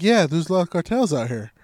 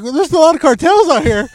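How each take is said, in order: First: Said in the usual way. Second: High, loud mimic of the warning; hammed-up mimic; mocking the host. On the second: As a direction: squeak the same words much higher and louder. Mimicked version.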